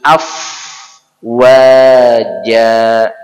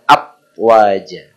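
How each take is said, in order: First: The first consonant is an f sound. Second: The first consonant is a b sound. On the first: The speaker calls it right. "Baguskan af wajah" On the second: The speaker calls it wrong. "jangan ab wajah"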